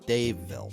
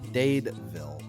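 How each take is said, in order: First: The middle consonant is a V sound. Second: The middle consonant is a D sound. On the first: The speaker calls it right. "That's how you pronounce it" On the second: The speaker calls it wrong. "not Dadeville"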